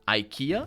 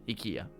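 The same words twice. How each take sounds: First: It is said with the usual English pronunciation. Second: It is said with a non-English pronunciation. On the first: This is the usual English way. "in English, there's a specific pronunciation" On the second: This is the way someone else taught it. "That's how he told me to do it"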